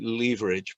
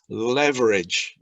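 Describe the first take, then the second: First: It is said with a British pronunciation. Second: It is said with an American pronunciation. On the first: "In British English, we'd call it leverage" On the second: "what the Americans call leverage"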